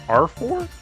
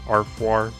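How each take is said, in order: First: The ending is said like four. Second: The ending is said like noir. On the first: The speaker calls it wrong. "they say R four" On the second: The speaker calls it right. "I think I used to say Arfoir"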